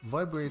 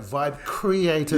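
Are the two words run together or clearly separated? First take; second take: run together; clearly separated. First: The two words are blurred into one word. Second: Each word is pronounced clearly and separately. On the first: The speaker calls it wrong. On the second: The speaker calls it right.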